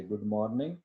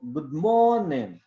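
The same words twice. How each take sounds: First: गुड मॉर्निंग said carefully, d and r clearly sounded; a measured, schooled "good morning" for गुड मॉर्निंग; educated local pronunciation. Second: गुड मॉर्निंग merged in a native English accent, long drawn "mo-o", d swallowed; native-accent गुड मॉर्निंग with a stretched, rising-falling middle. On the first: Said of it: "पढ़े लिखे होने का सबूत देंगे". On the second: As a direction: imitate native English, run गुड मॉर्निंग together as "gu'mooornin". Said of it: "लेकिन गोरे को अगर आप सुने". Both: Shown as a demonstration.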